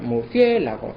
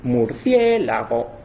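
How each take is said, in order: First: Said in the usual way. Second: Murciélago slowed and counted with one syllable less; slow murciélago with the last syllables run together; syllables squeezed. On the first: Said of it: "en vez de contar murciélago". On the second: Shown as a demonstration. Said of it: "sería mur".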